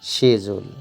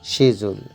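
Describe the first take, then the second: No difference in how they are said.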